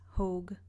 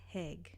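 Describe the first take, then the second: First: The vowel sounds like 'hoe'. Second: The vowel sounds like 'hay'. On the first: The speaker calls it right. "I know it's Hogue" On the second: The speaker calls it wrong. "not Haig"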